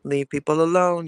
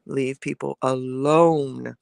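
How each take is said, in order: First: Said in the usual way. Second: "Leave people alone" drawn out slowly, word by word; slow, emphatic repeat. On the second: Shown as a demonstration. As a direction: stretch "alone" out slowly to drive the point home.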